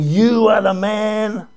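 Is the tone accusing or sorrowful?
accusing. It is said in a sharp, accusing tone.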